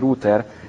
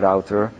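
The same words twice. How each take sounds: First: It is said the usual Hungarian way. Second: It is said the American way.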